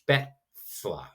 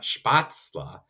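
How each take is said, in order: First: The first vowel is the umlaut ä sound. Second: The first vowel is a plain a sound. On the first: The speaker calls it right. "it's Spätzle" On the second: The speaker calls it wrong. "it's not Spatzle"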